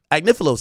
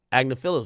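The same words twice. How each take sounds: First: Agnifilo said ag-NIF-uh-loh, stress on NIF; corrected name. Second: Agnifilo said AG-nuh-fill-oh, stress on the first syllable; mispronounced name. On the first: Streamer corrects the lawyer's name to ag-NIF-uh-loh. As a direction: Agnifilo with the second syllable as "nif". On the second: Streamer stumbles on the lawyer's name, AG-nuh-fill-oh. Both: Shown as a demonstration. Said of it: "I'm saying his name wrong".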